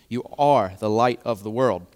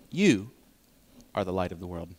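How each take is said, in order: First: The word are is stressed. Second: The word you is stressed.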